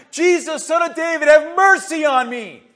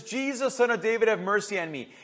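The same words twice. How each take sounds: First: Loud, high plea building to a shout; full-voiced, insistent begging shout; desperate cry out. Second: Mildly raised plea, easing off at the end; first, milder cry to Jesus; restrained retold cry. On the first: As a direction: cry out for mercy over the crowd. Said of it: "he cried even louder". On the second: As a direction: call out for mercy, held back. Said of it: "He cries out and says".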